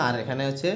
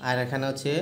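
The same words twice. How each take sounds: The two takes are said the same way.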